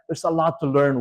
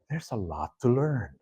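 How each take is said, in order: First: It sounds upbeat and enthusiastic. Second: It sounds weary and overwhelmed. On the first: The amount of knowledge is exciting. "I can say that in a positive way" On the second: The amount of knowledge is overwhelming. "But I could also say that in a negative way"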